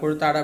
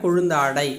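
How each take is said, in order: First: The middle has a plain doubled t sound. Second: The middle has a nasal n before t. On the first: This is the everyday spoken form. "பேச்சு வழக்கில் சொல்லுவோம்" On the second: This is the formal written form. "எழுத்து வழக்கு அப்படின்னா"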